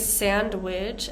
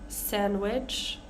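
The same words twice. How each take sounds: First: A D sound is heard in the middle. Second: No D sound is heard in the middle. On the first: The speaker calls it wrong. "we don't say sandwich" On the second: The speaker calls it right. "That D is kind of ignored"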